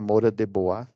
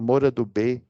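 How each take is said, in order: First: The name ends with a 'bwa' sound. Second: The name ends with a short 'bay' sound. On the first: This is the proper pronunciation of the name. The speaker calls it right. "acho que é a pronúncia certa" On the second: This is how people commonly say it. The speaker calls it wrong. "o pessoal aí chama"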